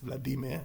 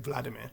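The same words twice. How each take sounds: First: The stress is on a later syllable. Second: The stress is on the first syllable. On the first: This is the preferred Russian way. The speaker calls it right. "is the preferred Russian" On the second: This is the usual English way. The speaker calls it wrong. "in English we tend to put the stress on the first syllable"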